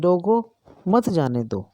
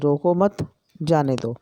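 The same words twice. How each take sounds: First: There is a pause after the first word. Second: There is a pause after the second word. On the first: Stop him and do not let him go. "अगर हम रोको के बाद अ, अर्धविराम लगाते हैं" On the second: Do not stop him; let him go. "यदि हमने अर्धविराम यहाँ लगा दिया"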